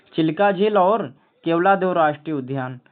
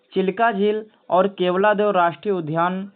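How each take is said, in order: No difference in how they are said.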